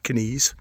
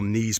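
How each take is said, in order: First: The word begins with a K before the N. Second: The word begins with a plain N sound. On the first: This is the traditional northeast Scotland pronunciation. "not uncommon traditionally to pronounce the K" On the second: This is the usual English pronunciation. "the K for a lot of words like knife and knees is silent"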